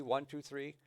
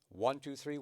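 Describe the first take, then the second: First: "one, two, three" repeated in rhythm, leaning on "one"; counting the triplet again. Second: "one, two, three" chanted with the beat on "one"; counting the triplet. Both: Shown as a demonstration. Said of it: "And then the triplet".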